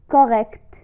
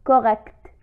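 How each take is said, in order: Both takes have the same delivery.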